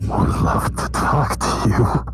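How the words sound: It is said in an imagined character's voice.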